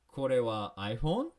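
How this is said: The voice rises at the end. It asks whether this is an iPhone.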